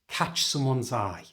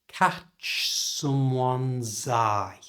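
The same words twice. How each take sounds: First: The phrase is said at normal conversational speed. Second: The phrase is said slowly and carefully. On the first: "And at normal speed" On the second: "Blend all of the words together like this"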